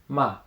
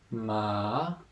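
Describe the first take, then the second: First: The pitch falls sharply from high. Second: The pitch dips down, then rises. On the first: "the fourth tone, ma. ... a little bit sharper, down" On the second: "the third tone, ma, down, up"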